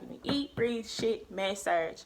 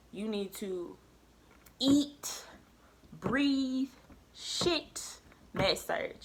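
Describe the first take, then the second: First: Imitated insistence, words run together; retold firm instruction; adamant tutor, quicker retake. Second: "eat, breathe, shit, med surg" each set apart by long pauses; "eat", "breathe", "shit" pitched up, each its own command; adamant tutor. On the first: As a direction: repeat the tutor's orders briskly. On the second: Retold or imitated. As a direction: imitate an insistent tutor, one word at a time from "eat" to "med surg". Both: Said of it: "she's so adamant about this".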